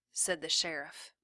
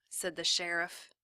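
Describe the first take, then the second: No difference in how they are said.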